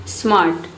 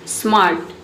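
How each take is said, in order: No difference in how they are said.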